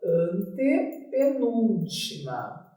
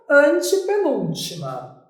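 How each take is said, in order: First: "antepenúltima" slow and softer, syllables stretched; writing-out dictation. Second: Said in the usual way. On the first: Shown as a demonstration. Teacher noting the term for students, slow dictation. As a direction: draw out "antepenúltima" as you write it. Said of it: "A gente vem aqui e anota".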